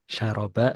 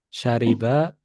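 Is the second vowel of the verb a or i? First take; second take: a; i. First: The second vowel of the verb is a. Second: The second vowel of the verb is i. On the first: The speaker calls it wrong. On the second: The speaker calls it right.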